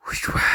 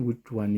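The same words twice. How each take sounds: First: Hissed question. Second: Said in the usual way. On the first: Acted. Teacher demonstrating how the stranger answered David, hissing. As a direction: hiss the words out with heavy breath. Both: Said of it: "ዘማን ሂስድ ትመላልሳ".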